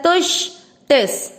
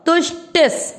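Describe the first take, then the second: First: तुष्टिस with the ष said a little stronger; तुष्टिस with a crisp ष and a light स; sharper ष. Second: तुष्टिस with the final स attached to टि; careful recitation. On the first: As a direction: say तुष्टिस slowly, pressing on the ष. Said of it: "श को थोड़ा तेज बोलना है". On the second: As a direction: recite तुष्टिस clearly and raised. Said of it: "ई के साथ आधा स". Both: Shown as a demonstration.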